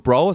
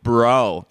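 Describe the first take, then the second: First: It is said plainly, with a German accent. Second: It is said with a drawn-out American accent. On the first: "nicht so einfach nur so bro" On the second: "So als würde er aus Kalifornien kommen"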